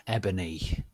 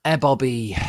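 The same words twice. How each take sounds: First: Said in the usual way. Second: "Eboby" said loud, high; misread name. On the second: Acted. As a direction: stumble onto "Eboby" then fix.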